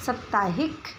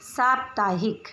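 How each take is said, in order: First: साप्ताहिक mangled as "सत्ताहिक"; साप्ताहिक without the "प्" sound; wrong pronunciation. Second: साप्ताहिक said slowly as "साप-ताहिक" with a clear प्; साप्ताहिक spelled out carefully, syllable by syllable; correct pronunciation, slow. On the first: (साप्ताहिक का अशुद्ध उच्चारण) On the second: (साप्ताहिक का शुद्ध, धीमा उच्चारण) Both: Shown as a demonstration. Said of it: "इन शब्दों का उच्चारण करते हैं".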